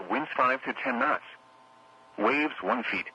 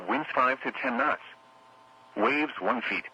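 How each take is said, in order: Both takes have the same delivery.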